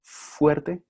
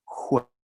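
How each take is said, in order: First: Very slow "Fuerte" with a clear f; standard pronunciation. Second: Very slow "juerte" with a throaty j; variant pronunciation. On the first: Teacher repeating the contrast for students, slow "Fuerte" with f. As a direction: spell out "Fuerte" slowly, f first. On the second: Teacher repeating the contrast for students, slow "juerte" with j. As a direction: draw out "juerte", j replacing the f. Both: Shown as a demonstration. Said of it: "¿Sí lo escuchan?".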